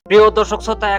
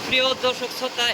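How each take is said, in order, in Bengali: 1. পেছনে কোনো মেশিনের শব্দ শোনা যাচ্ছে না। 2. পেছনে মেশিনের শব্দ স্পষ্ট শোনা যাচ্ছে। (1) "এখন কিন্তু মেশিনের একটুকু সাউন্ড নাই, কেননা এখন আমি মাইক লাগায় কথা কইতেছি" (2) "এখন নর্মাল মানে মাইক না লাগায় কথা কইতেছি"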